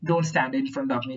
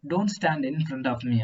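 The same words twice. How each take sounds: First: It is said angrily, with force. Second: It is said flatly, without life.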